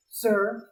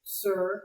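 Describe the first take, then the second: First: Said in the usual way. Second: Smoothly added correction; understated, smooth prompt. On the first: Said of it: "I said". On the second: A narrator's reading. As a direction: slip it in smoothly. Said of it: "he added smoothly".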